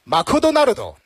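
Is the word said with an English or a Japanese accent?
Japanese. It is said with a Japanese accent. "如果是日式英语的话，那就是"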